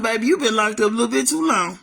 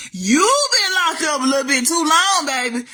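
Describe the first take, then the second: First: Sassy inner thought. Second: Said in the usual way. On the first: Retold or imitated. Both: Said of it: "you know what I was thinking to myself?".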